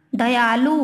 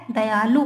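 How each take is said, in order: First: दयालु with a long drawn "aa", the wrong way; wrong drawn-out dayaalu. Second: दयालु with a short crisp "a", said the right way; correct short dayalu. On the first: Teacher demonstrating the wrong way: long drawn दयालु. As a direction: stretch the a in दयालु like a careless speaker. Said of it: "अशुद्ध है". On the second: Teacher modelling the correct way: short दयालु. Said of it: "सही रूप इसका क्या है". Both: Shown as a demonstration.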